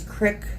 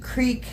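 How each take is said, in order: First: The word has a short i vowel. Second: The word has a long ee vowel. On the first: "crick rhymes with prick" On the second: "creek rhymes with squeak"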